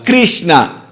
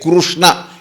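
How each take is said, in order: First: The first syllable sounds like 'kri'. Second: The first syllable sounds like 'kru'. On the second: "The R Shabda is pronounced as Ru"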